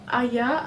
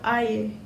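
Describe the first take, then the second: First: It is said the Penang way, like aya. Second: It is said the Sabahan way, like air.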